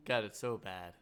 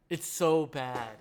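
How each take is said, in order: First: Said in the usual way. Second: Slow, louder, dragged-out so bad; drawn-out disgust. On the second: Real, not acted. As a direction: stretch it out in mock despair. Repeating verdict on bad movie.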